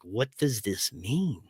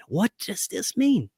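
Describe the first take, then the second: First: Slow, soft, dazed murmur to himself; asking himself, lost and quiet. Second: Same question asked higher, slow and bewildered; puzzled repeat. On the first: Waking up lost, asking himself in a soft murmur. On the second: Waking up lost, asking again higher and bewildered. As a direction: raise it, pleading for an answer. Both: Retold or imitated. Lost, confused morning after.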